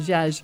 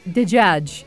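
First: It is said jaj, as in Levantine. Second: It is said dejaj, as in Fusha.

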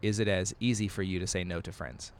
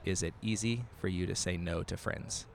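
First: It is said fast. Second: It is said slowly.

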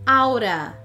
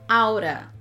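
The two takes are said the same way.

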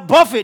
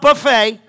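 First: The stress is on the first syllable. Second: The stress is on the second syllable. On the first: It means beating the body into shape. The speaker calls it right. "I buffet" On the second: It means a spread of food. The speaker calls it wrong. "not buffet. I know some of you like read too fast"

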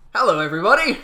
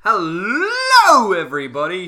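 First: It is said with moderate, balanced energy. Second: It is said with excessive, over-the-top energy.

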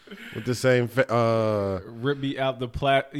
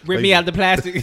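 First: It is said coolly, with little force. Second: It is said with more force and energy. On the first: "you don't say it that cool, bro" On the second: "put something behind it"

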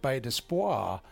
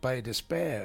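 First: The name is given a French pronunciation. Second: The name is given the local pronunciation. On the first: The speaker calls it wrong. "because it was French, I was pronouncing it Bay d'Espoir" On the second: The speaker calls it right. "We call it Bay d'Espoir"

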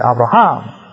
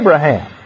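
First: The stress is on the last syllable. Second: The stress is on the first syllable. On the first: "They say Abraham" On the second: "We say Abraham"

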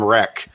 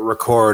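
First: The title is said with one syllable. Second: The title is said with two syllables. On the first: "I've been calling them" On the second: "this is the first I heard that you pronounce it"

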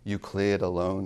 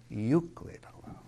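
First: The stress in 'Euclid' falls on the second syllable. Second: The stress in 'Euclid' falls on the first syllable. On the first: The speaker calls it wrong. "Is how some people want to read it, because that's the rhythm" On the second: The speaker calls it right. "No, ... Read it as it sounds"

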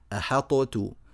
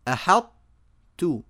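First: The ṭ is fully released with a bounce. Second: The ṭ begins, then opens straight into t. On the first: The speaker calls it wrong. "يظهرون هذه الطاء إظهارا مطلقا فيجعلونها مقلقلة" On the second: The speaker calls it right. "نطقت طاء ثم فتحت المخرج على تاء"

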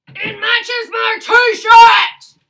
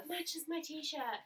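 First: It is said loudly. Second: It is said at normal volume.

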